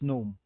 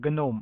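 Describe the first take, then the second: First: The initial G is silent, starting on N. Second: The initial G is pronounced before the N. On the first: This is how the speaker normally says it. "silent G" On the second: This is how the project's own people say it. "as they would pronounce it"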